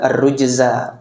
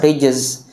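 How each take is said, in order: First: The vowel after the r is u. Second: The vowel after the r is i. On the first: "pakai dhammah" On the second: "harokat kasrah"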